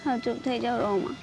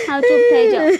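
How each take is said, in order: First: Much softer, lower hush; soft soothing. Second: Louder, firm plea to stop; firm hush. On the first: Daughter gently soothing her weeping mother, soft. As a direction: ease her into calm. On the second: Daughter firmly hushing her crying mother, louder. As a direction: cut through her crying. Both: Acted.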